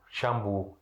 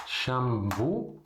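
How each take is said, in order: First: Shampoo low and short as shambu, b not p; Arabic pronunciation. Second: Shampoo said as shabu, with b in place of p; Arabic pronunciation. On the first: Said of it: "nessa maneira". (Shampoo dito shambu, mais grave) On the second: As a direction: model Shampoo the Arabic way, shambu. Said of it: "Em árabe a gente fala shampoo". (Shampoo com b, à maneira árabe) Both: Shown as a demonstration.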